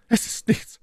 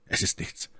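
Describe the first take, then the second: First: High, airy voice for the lady; Milady's voice. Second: Very soft, almost whispered; quiet reassurance. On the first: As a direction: answer in the lady's high register. Versetzte My Lady. (hohe Stimme der Mylady) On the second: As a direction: reassure her under your breath. Sagte Felton. (leise, beruhigend gehaucht) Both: A narrator's reading.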